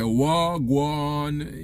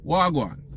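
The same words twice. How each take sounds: First: The word is said with exaggerated, heavy emphasis. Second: The word is said in a relaxed, natural way. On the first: The speaker calls it wrong. "you don't have to say wagwan" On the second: The speaker calls it right. "in Jamaican we say wagwan"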